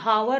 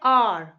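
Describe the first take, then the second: First: The word starts with an audible h sound. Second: The word starts directly with a vowel sound. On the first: The speaker calls it wrong. "इसे हम हावर नहीं पढ़ते हैं" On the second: The speaker calls it right. "इसको हम पढ़ते हैं आर"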